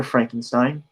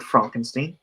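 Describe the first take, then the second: First: Said in the usual way. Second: Frankenstein said as "Fronkensteen"; alternative pronunciation. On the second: Shown as a demonstration. Host querying his own title, Frankenstein pronounced "Fronkensteen". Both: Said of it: "or is it Frankenstein".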